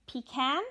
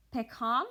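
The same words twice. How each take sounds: First: "pecan" said as pee-KAN; English "pecan" with puffed p and front a; English pronunciation. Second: "pecan" said as peh-KAHN; Norwegian pronunciation. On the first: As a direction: say "pecan" the English way, with a flat a as in cat. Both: Shown as a demonstration. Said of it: "just said different".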